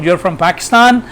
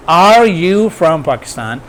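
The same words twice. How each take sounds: First: Statement as a question, "Pakistan" held up; higher intonation on "Pakistan". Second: Slow question, letting "Pakistan" decline in pitch; declining intonation on "Pakistan". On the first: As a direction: keep the pitch raised through "Pakistan" to ask. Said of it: "So intonation is higher". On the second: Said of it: "there would be declining intonation". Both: Shown as a demonstration.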